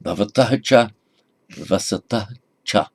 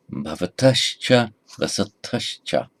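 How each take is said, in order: First: Bhavatah cha with a clear h, no sandhi; without sandhi. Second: Bhavatascha with h turned to sh; with sandhi. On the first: Teacher reading the words before sandhi, unjoined. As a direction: keep "Bhavatah" and "cha" apart, ending on a clear h. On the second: Teacher reading with correct sandhi, joined. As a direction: join "Bhavatascha" into one word, the h becoming sh before cha. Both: Shown as a demonstration. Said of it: "And read now with correct sandhi".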